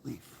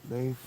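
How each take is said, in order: First: Leif said like "leaf"; customary pronunciation. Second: Leif said alone as "layf"; proper pronunciation. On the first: Author shows how we pronounce Leif, as "leaf". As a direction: give Leif a long ee vowel. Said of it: "we pronounce it". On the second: Author repeats how Leif should be pronounced, as "layf". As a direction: give Leif an ay vowel. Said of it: "I should pronounce it like". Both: Shown as a demonstration.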